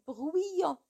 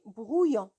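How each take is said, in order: First: The first syllable has a 'wee' sound, like 'oui'. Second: The first syllable has a plain 'oo' sound. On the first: The speaker calls it wrong. "On ne dit jamais bruyant. C'est faux" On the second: The speaker calls it right. "On dit brouillon"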